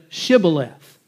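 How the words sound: It begins with an sh sound, Gileadite-style.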